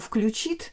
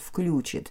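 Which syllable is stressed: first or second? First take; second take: second; first. First: The stress is on the second syllable. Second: The stress is on the first syllable. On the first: This is the accepted standard form. The speaker calls it right. "ударение имеет на второй слог должно падать" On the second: This is a colloquial, non-standard form. The speaker calls it wrong. "второй вариант «включит», пока он не является нормативным"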